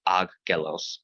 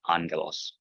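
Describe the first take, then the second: First: The first consonant sounds like a g. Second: The first consonant sounds like an n. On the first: The speaker calls it wrong. "not aggelos" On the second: The speaker calls it right. "not like a g, but like an N sound"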